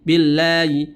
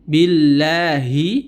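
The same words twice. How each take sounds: First: The h sound is faint, almost inaudible. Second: The h sound is pronounced clearly and fully. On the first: The speaker calls it wrong. "dia baca billahi ... karena dia memberikan sifat khofa" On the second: The speaker calls it right. "Seharusnya kita baca billahi"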